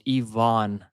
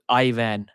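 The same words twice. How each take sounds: First: The second syllable has a long a vowel. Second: The second syllable has a short a vowel. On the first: The speaker calls it right. "It's always a double A" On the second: The speaker calls it wrong. "pronounces it as Ivan"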